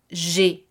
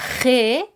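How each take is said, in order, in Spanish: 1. La letra se nombra con pronunciación francesa. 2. La letra se nombra con pronunciación española. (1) "que se convierte en G" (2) "La letra G"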